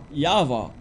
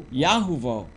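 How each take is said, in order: First: Yahweh said as Ya-va, two syllables; demonstrated pronunciation. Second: Yahuwah said as Ya-hu-vau, three syllables; demonstrated pronunciation. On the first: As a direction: say Yahweh as a short Ya-va. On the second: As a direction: say Yahuwah with a middle hu. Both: Shown as a demonstration. Teacher showing how they wrote it, careful pronunciation. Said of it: "how to pronounce it".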